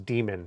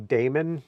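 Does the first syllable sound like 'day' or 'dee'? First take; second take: dee; day. First: The first syllable sounds like 'dee'. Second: The first syllable sounds like 'day'. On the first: "the correct pronunciation is demon. And A is silent" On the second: "some people say daemon"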